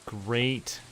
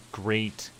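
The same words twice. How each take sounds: The two takes are said the same way.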